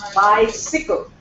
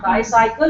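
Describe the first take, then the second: First: The second syllable sounds like sickle. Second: The second syllable sounds like cycle. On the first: The speaker calls it right. "it is bicycle" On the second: The speaker calls it wrong. "but it is not bicycle"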